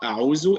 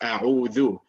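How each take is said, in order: First: The middle consonant is a buzzing z sound. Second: The middle consonant is a voiced 'th' sound. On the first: The speaker calls it wrong. "it's not a'uzu" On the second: The speaker calls it right. "it is a'udhu"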